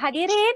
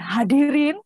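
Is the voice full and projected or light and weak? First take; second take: weak; full. First: The voice is light, casual and unprojected. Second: The voice is full and projected from the belly. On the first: It does not suit a formal event. The speaker calls it wrong. "enggak, itu bukan acara resmi ya" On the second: It suits a formal event. The speaker calls it right. "dia suara perut"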